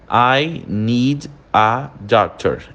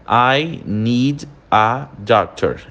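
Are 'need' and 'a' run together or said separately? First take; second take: separately; separately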